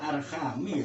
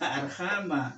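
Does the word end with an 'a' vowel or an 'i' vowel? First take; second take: i vowel; a vowel. First: The word ends with an 'i' vowel. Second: The word ends with an 'a' vowel. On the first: The speaker calls it wrong. "Itu baca saja keliru" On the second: The speaker calls it right. "betulnya arhama"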